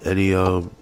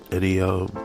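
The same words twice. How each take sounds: The two takes are said the same way.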